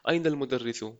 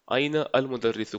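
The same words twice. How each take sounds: First: The words are joined in one smooth flow. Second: The words are read separately, one by one.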